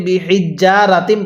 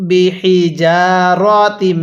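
First: বিহিজ্জারাতিম with a doubled jj, said quickly; wrong doubled j. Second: বিহিজারাতিম very slow, single j, nasal hum; correct ghunnah. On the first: Teacher showing the common mistake: quick doubled jj. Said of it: "এই শব্দটাকে ভুল পড়ি". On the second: Teacher giving the right reading after the wrong one, slow. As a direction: stretch বিহিজারাতিম slowly with ghunnah. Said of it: "এরকমভাবে পড়তে হবে". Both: Shown as a demonstration.

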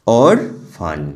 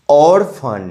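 First: Orphan said as or, pause, phan; split in two. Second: Said in the usual way. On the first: Shown as a demonstration. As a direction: break orphan into two separate syllables. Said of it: "দুটো ভাগে ভাগ করতে পারছি". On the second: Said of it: "এগুলো ভাঙা যাচ্ছে না".

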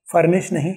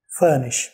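First: Furnish with rolled r; furnish, local rhotic style; wrong furnish. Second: Furnish as fuh-nish, no r; furnish, British schwa vowel. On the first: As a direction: say furnish with a hard r, fur-nish. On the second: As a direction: drop the r in furnish. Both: Shown as a demonstration.

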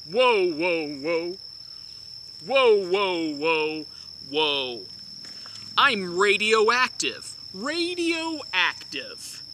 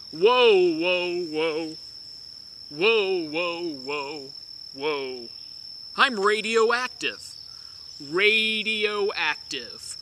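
No difference in how they are said.

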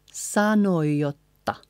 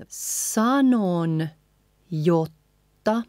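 First: Sanoi jotta joined as "sanoj-jotta"; linked sanoi jotta without the N; N out, J doubled. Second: Sanon, pause, jotta; slow careful sanon jotta with its N; N sounded. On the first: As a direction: glide sanoi into a long J of jotta. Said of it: "leaving out the N and doubling the J". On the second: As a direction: keep sanon apart from jotta. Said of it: "leaving out the N". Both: Shown as a demonstration.

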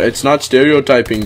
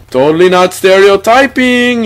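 First: Said in the usual way. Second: Put-on Indian accent.

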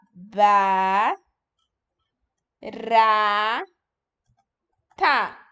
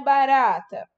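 First: "Ba. Ra. Ta." as isolated held syllables with long pauses. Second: Said in the usual way. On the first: Shown as a demonstration. Teacher checks how pupils wrote barata, "Ba. Ra. Ta." in separate syllables. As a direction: sound out "Ba", "Ra", "Ta" one at a time. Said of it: "Olha o ba". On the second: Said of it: "Como que vocês escreveram barata?".

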